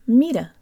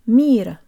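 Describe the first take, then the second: First: Both syllables are said evenly, with a clear final vowel. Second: The first syllable is strong; the final vowel nearly vanishes. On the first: "Now take off the P" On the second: "overemphasize the meet and minimize the A so that it's almost not present"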